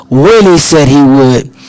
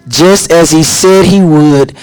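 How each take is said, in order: First: "when" hit hard, the rest falling away; stress on when. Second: "said" leaned on, slow and deliberate; stress on said. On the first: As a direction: land the weight on "when". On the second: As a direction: press the word "said" as the promise. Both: Shown as a demonstration.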